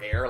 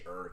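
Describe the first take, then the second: First: The word sounds like air. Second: The word sounds like her. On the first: "the word air" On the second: "You're supposed to say er technically"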